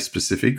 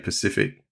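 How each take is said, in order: First: The word starts with an s sound. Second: The word starts without the s sound. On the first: The speaker calls it right. "Normally I don't say specific" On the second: The speaker calls it wrong. "I say pacific"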